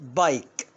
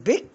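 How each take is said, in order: First: The vowel is the long 'eye' sound. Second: The vowel is a short 'i' sound. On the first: The speaker calls it right. "لا طبعا بايك" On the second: The speaker calls it wrong. "ها اقول بيك؟"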